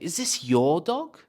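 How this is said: The word 'your' is strongly stressed. "So I really want to stress your"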